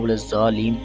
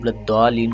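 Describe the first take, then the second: First: The doubled consonant is a z sound. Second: The doubled consonant is a heavy d-like sound. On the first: The speaker calls it wrong. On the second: The speaker calls it right.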